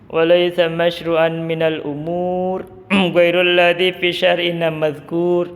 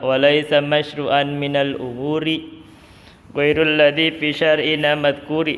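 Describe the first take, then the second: First: Umur and madhkur end bare, without a final vowel. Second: Umuri and madhkuri end with a final i vowel. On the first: "Itu bisa dibaca gitu" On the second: "Katanya mujawarah"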